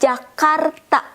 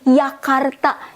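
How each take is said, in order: First: The word begins with a J sound. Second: The word begins with a Y sound. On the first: The speaker calls it right. "it's supposed to be Jakarta" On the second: The speaker calls it wrong. "people keep saying Yakarta, because of they read this one as Y"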